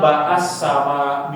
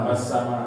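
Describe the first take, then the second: First: The first word has an extra a vowel. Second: The first word is one short syllable. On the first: The speaker calls it wrong. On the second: The speaker calls it right.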